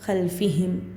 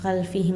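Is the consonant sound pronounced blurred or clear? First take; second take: clear; blurred. First: The consonant sound is pronounced clearly and distinctly. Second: The consonant sound is blurred, not clearly pronounced. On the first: The speaker calls it right. "यहाँ भी इजहार कर कर ही पढ़ना है" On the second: The speaker calls it wrong. "खल्फिहिम नहीं"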